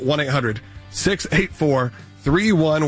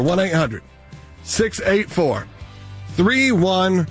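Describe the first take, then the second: First: It is said at a normal, quicker pace. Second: It is said slowly and deliberately.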